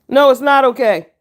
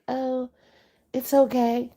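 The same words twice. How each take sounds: First: Loud, high, firm no with a sharp fall; stern correction. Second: Mock parent cooing it's okay, higher and much softer; soft permissive parent. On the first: Real, not acted. Correcting permissive parents, loud and stern. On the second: Parent soothing a badly behaved kid, mock soft coo. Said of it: "parents that are like".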